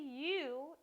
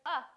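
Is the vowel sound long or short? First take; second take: long; short. First: The vowel is long, saying its letter name. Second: The vowel is short, a brief uh sound. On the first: The speaker calls it wrong. "this doesn't say U" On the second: The speaker calls it right. "the short vowel sound"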